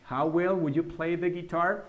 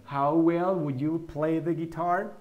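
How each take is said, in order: First: Said in the usual way. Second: Slow and careful, each word clear; slow model sentence. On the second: Shown as a demonstration. Teacher to students, slow repeatable model sentence. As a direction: say it slowly so students can repeat. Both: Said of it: "Trata de repetirlas también la pronunciación".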